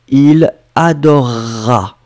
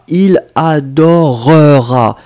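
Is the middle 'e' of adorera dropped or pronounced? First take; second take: dropped; pronounced. First: The middle e is dropped, giving a long R. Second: The middle e is said as a full syllable. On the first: The speaker calls it right. "On prononce comme si vous aviez un double R" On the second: The speaker calls it wrong. "on ne prononce pas comme ça"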